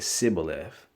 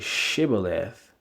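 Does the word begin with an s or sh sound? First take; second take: s; sh. First: The word begins with an s sound. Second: The word begins with a sh sound. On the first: The speaker is an Ephraimite. "the Ephraimites would say Sibboleth" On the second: The speaker is an ordinary Israelite. "other Israelites would say Shibboleth"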